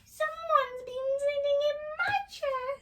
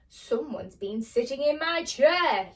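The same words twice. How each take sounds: First: It is said in a small, squeaky voice. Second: It is said in a big, booming voice.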